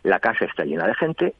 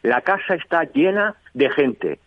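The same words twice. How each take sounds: First: The voice is pitched at a medium level. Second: The voice is pitched high. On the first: "En un tono medio" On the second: "Y en un tono alto"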